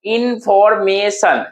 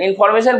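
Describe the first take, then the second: First: "इन्फॉर्मेशन" slowly as इन-फॉर-मे-शन; split into syllables. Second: Said in the usual way. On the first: Shown as a demonstration. Teacher showing what the word is made of, syllable by syllable. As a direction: draw out four parts of "इन्फॉर्मेशन". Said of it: "कितने word से बना".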